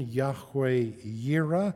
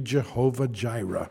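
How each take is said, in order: First: Both words begin with a Y sound. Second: Both words begin with a J sound. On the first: The speaker calls it right. "It's in the better pronunciation" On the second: The speaker calls it wrong. "If you've got an old King James, it'll be Jehovah Jireh"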